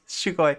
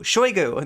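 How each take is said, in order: First: The name is said as Shoo-goy. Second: The name is said as Shoy-goo. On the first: The speaker calls it wrong. "not Shoi Shugoi" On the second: The speaker calls it right. "Shoigu, not Shoi Shugoi"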